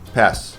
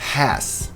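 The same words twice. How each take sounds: First: The vowel is clipped and short. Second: The vowel is drawn out and long. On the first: The speaker calls it wrong. "e não" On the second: The speaker calls it right. "Um som longo de E"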